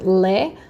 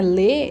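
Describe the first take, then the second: First: The vowel is open and bright. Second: The vowel is closed and softer. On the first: The speaker calls it wrong. "Não, não falo lé" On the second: The speaker calls it right. "é mais para dentro, é mais baixinho"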